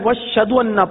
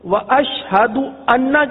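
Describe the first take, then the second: First: The h is replaced by a doubled sh. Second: An h sound follows the sh. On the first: The speaker calls it wrong. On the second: The speaker calls it right.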